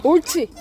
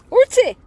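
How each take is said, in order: First: Said in the usual way. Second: Squeaky praising a dog. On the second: Real, not acted. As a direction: coo it like praising a puppy. Praising the child during play.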